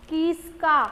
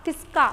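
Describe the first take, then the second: First: किसका sounded out slowly as की, स्का. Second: Said in the usual way. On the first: Shown as a demonstration. Teacher showing learners how matra words are read, sounded out. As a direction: break किसका after a drawn-out first syllable. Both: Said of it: "कैसे उच्चारण करेंगे".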